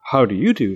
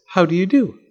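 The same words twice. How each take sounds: First: Said in the usual way. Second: High-pitched, polite doll voice; doll's polite greeting. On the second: A narrator's reading. Doll greets Fletcher from inside the egg, high polite voice.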